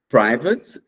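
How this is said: The first syllable sounds like 'pry'. "nos Estados Unidos"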